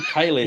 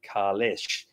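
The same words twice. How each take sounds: First: The name starts with a plain, ordinary sound. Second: The name starts with a guttural, throaty sound. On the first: This is the older, established pronunciation. "So they've said Kailash all throughout Next Generation" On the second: This is the newer, supposedly authentic pronunciation. "the guttural authentic pronunciation, which is more like"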